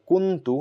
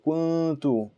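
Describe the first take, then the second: First: The n is fully pronounced with the tongue touching. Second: The n is hidden as a nasal hum. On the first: The speaker calls it wrong. "You're not going to say kuntu" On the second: The speaker calls it right. "You're going to say kuntu"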